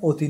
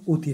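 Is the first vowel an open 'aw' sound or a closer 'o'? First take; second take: open aw; closer o. First: The first vowel is an open 'aw' sound. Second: The first vowel is a closer 'o' sound. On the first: The speaker calls it wrong. "এটা অতি নয়" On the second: The speaker calls it right. "এটা তখন উতি হবে"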